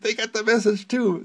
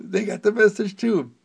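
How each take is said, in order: First: Higher, louder exasperated exclamation; exasperated retort. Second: Louder, higher repeated exclamation, fed up; exasperated repeat. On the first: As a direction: snap it out, fed up. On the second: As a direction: say it again, more insistent. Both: Retold or imitated. Telling someone who repeats it that they already know, exasperated and loud. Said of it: "and I say".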